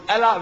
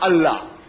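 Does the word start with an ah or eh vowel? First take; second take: eh; ah. First: The first vowel sounds like eh. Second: The first vowel sounds like ah. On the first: This is how Bible readers say it. "they pronounce Allah" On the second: This is how Muslims say it. "we pronounce Allah"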